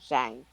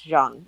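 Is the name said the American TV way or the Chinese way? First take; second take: American TV; Chinese. First: The name is said the American TV way. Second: The name is said the Chinese way. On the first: The speaker calls it wrong. "It's not Zhang. The way they're pronouncing it is incorrect" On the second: The speaker calls it right. "It's Zhang"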